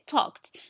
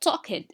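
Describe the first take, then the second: First: The ending is pronounced as a t sound. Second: The ending is not pronounced as a t sound. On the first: The speaker calls it right. "We say talked" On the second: The speaker calls it wrong. "and not talked"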